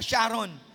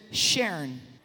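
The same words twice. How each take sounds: First: The name is said with a Filipino pronunciation. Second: The name is said with an American pronunciation. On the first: "Sa aton, gets na kaya pag-pronounce" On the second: "in the States, they pronounce it Sharon"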